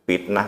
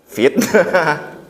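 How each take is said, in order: First: The word begins with a P sound. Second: The word begins with an F sound. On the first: The speaker calls it wrong. "Cenderung dia kalau ngomong cepat F itu jadi P" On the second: The speaker calls it right. "Pakai F kok pakai F"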